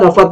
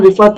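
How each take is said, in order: First: रफत with a short a after r; mispronunciation shown. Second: रिफअत with a short i after r; correct pronunciation. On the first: Teacher showing students the mistake to avoid, रफत said as ra-fat. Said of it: "नहीं". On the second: Teacher correcting a word for students, रिफअत said as rif-at. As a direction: say रिफअत as rif-at, i in the first syllable. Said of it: "इस लफ्ज का pronunciation". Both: Shown as a demonstration.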